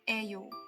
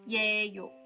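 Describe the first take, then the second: First: The word begins with a plain 'e' sound. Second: The word begins with a 'ye' glide sound. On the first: The speaker calls it right. "You can just say 에요 because it's more natural" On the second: The speaker calls it wrong. "But it doesn't sound like 예요"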